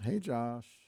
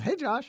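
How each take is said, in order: First: The greeting is said flatly, with little energy. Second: The greeting is said with more excitement.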